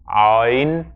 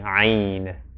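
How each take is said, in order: First: The vowel sounds dark and heavy, as if emphatic. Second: The vowel sounds light and plain, not emphatic. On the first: The speaker calls it wrong. "often people say like ayn, ayn, uh, as if it's emphatic" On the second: The speaker calls it right. "the most correct way to pronounce the name of the letter is ayn"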